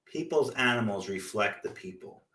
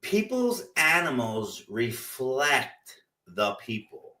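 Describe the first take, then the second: First: Said in the usual way. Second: Slow, deliberate line that fades to a whisper at the end; slow and pointed. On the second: Shown as a demonstration. Telling listeners pets mirror owners, slow and pointed. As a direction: let the truth sink in slowly. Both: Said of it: "but it's true".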